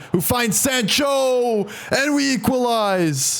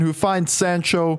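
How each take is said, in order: First: Higher, slow goal call; drawn-out excited call. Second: Said in the usual way. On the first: Real, not acted. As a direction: stretch out the equalizer with joy. Equalizing goal called.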